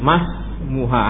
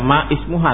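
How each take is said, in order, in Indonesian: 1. Vokal awal dihilangkan, menyambung menjadi masmuha. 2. Vokal awal ismuha diucapkan terpisah. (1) "tapi langsung mas muha, hamzah wasolnya enggak dibaca" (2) "bukan baca ma ismuha"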